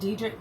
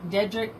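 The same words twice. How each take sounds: First: Dedrick said as DEE-drick, questioning rise; first syllable DEE. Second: Dedrick said as DED-rick; first syllable DED. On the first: Host unsure of a villain's name, Dedrick as DEE-drick. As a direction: test Dedrick with a long ee. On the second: Host unsure of a villain's name, Dedrick as DED-rick. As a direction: test Dedrick with a short e. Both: Real, not acted. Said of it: "oh, what's his name?".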